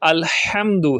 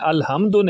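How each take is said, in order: First: The h is tense, from mid-throat. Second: The h is a light, soft breath. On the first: The speaker calls it right. "बल्कि अल्हम्दु है ... हा जो है हलक के दरमियान वाले हिस्से से निकाली जाती है" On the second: The speaker calls it wrong. "अलहम्दु नहीं है"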